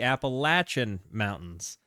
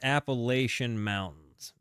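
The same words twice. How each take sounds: First: It uses the local Southern mountain pronunciation. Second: It uses the widespread, non-local pronunciation. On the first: This is how locals say it. "where I'm from, uh, in you know the region of the South, we would say" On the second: This is how outsiders say it. "Everybody else in the world says"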